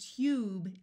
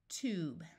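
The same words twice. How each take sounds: First: The vowel sounds like you, with a y-glide. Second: The vowel sounds like oo, with no y-glide. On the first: The speaker calls it wrong. "to do t, ube, tube is hard to say" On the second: The speaker calls it right. "so we switch from U to oo"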